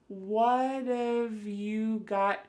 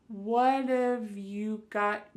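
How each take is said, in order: The two takes are said the same way.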